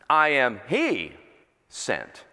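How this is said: The word 'he' is stressed. The speaker represents Him, with Christ inside. "But let's change the emphasis"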